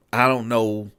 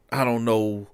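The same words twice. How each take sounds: The two takes are said the same way.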